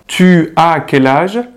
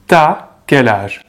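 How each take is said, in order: First: Tu and as are said as separate full words. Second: Tu as is squeezed into one syllable, t'as. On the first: This is the standard, careful form. "en vez de decir tu as" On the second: This is casual, friendly spoken French. "on va dire t'as. Permite hablar más rápido, un poquito más dinámico"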